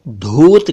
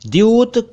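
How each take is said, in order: First: The first sound is a plain aspirated 'dh'. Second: The first sound is an unaspirated 'dy' cluster. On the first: The speaker calls it wrong. "कई लोग इसे धूत कहते हैं ... जो कि गलत है" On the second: The speaker calls it right. "सही उच्चारण मैंने बता दिया"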